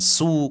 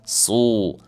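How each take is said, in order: First: The syllable is said thin and light. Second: The syllable is said thick and heavy. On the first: The speaker calls it wrong. "bukan su, kalau su tipis" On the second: The speaker calls it right. "tapi su"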